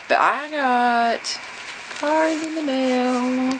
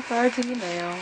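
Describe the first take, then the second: First: Sung, very slow, high singsong, stretching every word; sung, singsong announcement. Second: Sung, high singsong, much softer, trailing off; sung, soft singsong echo. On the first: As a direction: croon it out like a little tune. Excited about mail, drawn out. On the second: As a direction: hum the words back to yourself like a little tune. Repeat of the announcement, softer. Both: Real, not acted.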